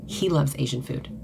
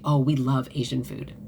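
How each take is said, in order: First: "He" lifted and held apart from the rest; stress on He. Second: Said in the usual way. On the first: Shown as a demonstration. Correcting her old habit of saying we, stress on "He". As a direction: lean on "He" to set him apart from we. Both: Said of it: "There's a difference".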